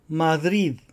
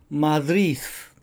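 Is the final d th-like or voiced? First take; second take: voiced; th-like. First: The final d is a soft voiced sound. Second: The final d sounds like a voiceless th.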